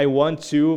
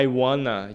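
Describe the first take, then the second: First: Each word of want to is said in full. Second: Want to is blended into one reduced word. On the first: "ao invés de falar I want to" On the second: "você vai falar I wanna"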